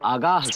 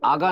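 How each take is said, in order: First: The word ends with a final h sound. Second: The word ends without a final h sound. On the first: The speaker calls it right. "आगाह कर रहे हैं" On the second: The speaker calls it wrong. "आगा नहीं"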